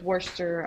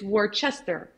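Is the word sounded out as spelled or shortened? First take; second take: shortened; as spelled. First: The word is said in a shortened form. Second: Every letter of the word is sounded out. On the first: The speaker calls it right. "but I know it's Worcester" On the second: The speaker calls it wrong. "I have a tendency to pronounce it the way I'm typing it"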